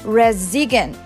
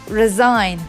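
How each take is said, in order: First: The g sound is pronounced in the word. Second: The g sound is not pronounced at all. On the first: The speaker calls it wrong. "Some say resign" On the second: The speaker calls it right. "but it's resign"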